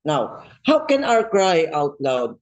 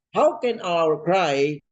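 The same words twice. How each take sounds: First: Said in the usual way. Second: "How can our cry" drawn out slowly, each word weighed; slow stately preacher emphasis. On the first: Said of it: "title po natin ay Cry Out Loud". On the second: Shown as a demonstration. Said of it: "open and close parenthesis".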